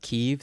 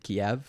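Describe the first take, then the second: First: The name is said the Ukrainian way. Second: The name is said the Russian way. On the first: It follows the Ukrainian form of the name. "That's how the Ukrainians pronounce it" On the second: It follows the Russian form of the name. "which is apparently Russian"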